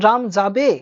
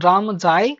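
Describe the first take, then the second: First: যাবে lifted at the end as a question; question rise. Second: রাম যায় ending level on যায়; flat statement. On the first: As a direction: raise যাবে like asking. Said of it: "এখানে যেন question". (প্রশ্নসূচক ওঠা সুর) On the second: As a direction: say যায় flat like a full stop. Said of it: "flat আছে কথাটা". (সমতল সুরে বলা) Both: Shown as a demonstration.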